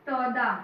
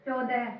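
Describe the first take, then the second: First: Slow, drawn-out तो चौदह, stretching the ओ sound in चौदह; slow sounded-out word. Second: Said in the usual way. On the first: Shown as a demonstration. Teacher to pupils, slowly sounding out the new word. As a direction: stretch चौदह slowly so the ओ vowel rings clearly. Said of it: "च पे ओ की मात्रा". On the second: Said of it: "ओ की मात्रा".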